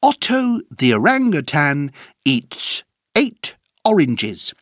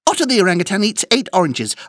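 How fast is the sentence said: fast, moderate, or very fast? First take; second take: moderate; very fast. First: The sentence is said at a moderate pace. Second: The sentence is said at a very fast pace.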